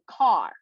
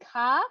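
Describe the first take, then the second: First: It is said with an American accent. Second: It is said with an Australian accent. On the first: "in America they would say car" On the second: "we would say car"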